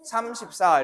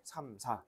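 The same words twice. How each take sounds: First: Said in the usual way. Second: "삼, 사" as two separate digits, a break between; teacher's demo of "삼, 사", each digit detached; digits read separately. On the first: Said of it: "삼십사 이렇게 읽잖아". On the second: Shown as a demonstration. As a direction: cut "삼, 사" apart, one digit at a time. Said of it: "하나씩 하나씩 끊어서 읽어줘야".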